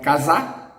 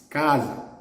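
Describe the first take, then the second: First: The stress is on the last syllable. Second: The stress is on the first syllable. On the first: The speaker calls it wrong. "It's not casa" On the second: The speaker calls it right. "the stressed syllable in the penultimate"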